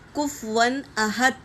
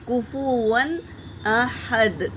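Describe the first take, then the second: First: No vowel is heard between f and w. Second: A u vowel is heard between f and w. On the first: The speaker calls it wrong. "यहाँ भी हम गलती करते हैं, कुफवन अहद पढ़ते हैं। ऐसा नहीं है" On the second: The speaker calls it right. "फा पर भी पेश है, तो कुफुवन बोलेंगे"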